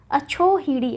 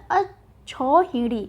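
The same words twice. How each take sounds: First: अछोहिड़ी as a-chho-hidi; the mistaken chho vowel in अछोहिड़ी; wrong form अछोहिड़ी. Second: अछौहिड़ी drawn out as a-chhau-hidi; correct form अछौहिड़ी. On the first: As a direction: say अछोहिड़ी with o after chh. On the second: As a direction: slowly say अछौहिड़ी with au after chh. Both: Shown as a demonstration. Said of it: "अछोहिड़ी नहीं होता".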